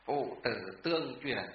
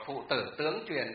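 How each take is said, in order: First: Tương kept even before truyền; tương with level tone. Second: Tướng swooping up before truyền; tướng with rising tone. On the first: Teacher recites the correct phrase, tương in level tone. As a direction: say tương in a level tone, no upward lift. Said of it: "mà phải đọc là phụ tử tương truyền". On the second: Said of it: "không đọc là phụ tử tướng truyền được". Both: Shown as a demonstration.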